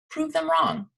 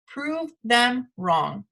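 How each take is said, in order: First: Said in the usual way. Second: Prove them wrong drawn out very slowly, each word weighted; slow, drawn-out emphasis. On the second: Shown as a demonstration. Coach urging viewers to defy doubters, slow and deliberate. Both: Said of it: "repeats the phrase slowly".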